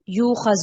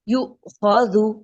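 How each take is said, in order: First: The vowel glides into kh without a glottal catch. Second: A sharp glottal catch comes before the kh. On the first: The speaker calls it wrong. "यूखज़ नहीं, देखिए आप लोग हमज़ा को सही तरह से अदा नहीं कर रहे।" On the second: The speaker calls it right. "हमज़ा को हमने झटके के साथ, जब भी ये साकिन होगा झटका दे देना है।"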